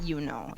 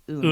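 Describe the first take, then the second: First: It is said like the phrase 'you know'. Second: It is said like the Spanish word 'uno'. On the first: The speaker calls it wrong. "it's not you know" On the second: The speaker calls it right. "It's Uno"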